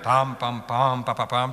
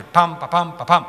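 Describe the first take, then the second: First: Weighty, even "Pam, pam, pam" then two light "pa"; majestic hexameter rhythm. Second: Lively "pam, pa, pam", louder and springy; bouncing trochee rhythm. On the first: Teacher demonstrating the hexameter for students, majestic beaten rhythm. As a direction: beat "Pam" out steadily like a stately march. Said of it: "C'est majestueux". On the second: Teacher showing the sudden rhythm change, animated bouncing beat. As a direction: bounce hard on each "pam", light on "pa". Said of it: "beaucoup plus animé, beaucoup plus bondissant". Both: Shown as a demonstration.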